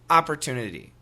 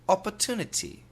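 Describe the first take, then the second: First: Relaxed, everyday American accent. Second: Imitated London British accent. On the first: "Typical American pronunciation" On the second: "I will try the London accent in the U K"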